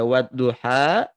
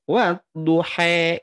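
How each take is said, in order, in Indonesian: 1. Vokal akhirnya di antara a dan e. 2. Vokal akhirnya terdengar seperti e. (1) "taklil di antara fathah dan imalah" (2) "Imalah itu ya bunyi e"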